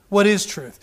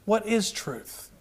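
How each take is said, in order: First: Said in the usual way. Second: Hushed and drawn out; quiet slow question. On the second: Shown as a demonstration. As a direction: let it sink in, soft and slow. Repeats question for emphasis.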